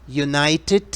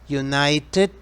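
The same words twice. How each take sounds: Both takes have the same delivery.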